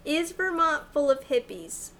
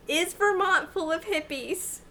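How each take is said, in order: First: Careful question to a phone, falling at the end; repeating to voice assistant. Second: Clear, careful question to a phone; repeating to voice assistant. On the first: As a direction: say it clearly for the phone. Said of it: "Oh, no". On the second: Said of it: "Thank you". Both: Real, not acted.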